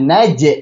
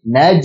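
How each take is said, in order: First: The j is released with a clear bounce. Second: The j is held without a bounce. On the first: The speaker calls it wrong. "Jangan naj. J, j, j. Hilangkan j-nya" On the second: The speaker calls it right. "Tapi naj"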